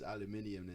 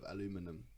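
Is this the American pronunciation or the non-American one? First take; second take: non-American; American. First: It is said the non-American way. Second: It is said the American way. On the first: The speaker calls it right. "the proper pronunciation for aluminium is aluminium" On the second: The speaker calls it wrong. "instead of aluminum"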